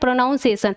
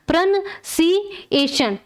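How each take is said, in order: First: The second syllable sounds like 'noun'. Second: The second syllable sounds like 'nun'. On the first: The speaker calls it wrong. "लेकिन ये हमारा सही उच्चारण नहीं है।" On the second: The speaker calls it right. "इसका सही उच्चारण क्या हो जाएगा"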